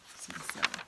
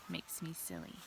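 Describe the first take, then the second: First: Whispered. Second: Said in the usual way. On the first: Shown as a demonstration. Whispered repeat of the same words.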